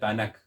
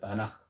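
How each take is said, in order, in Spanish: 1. La palabra termina en un sonido K fuerte. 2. La palabra termina en un sonido J áspero. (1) "no diga Tanakh" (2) "diga Tanaj"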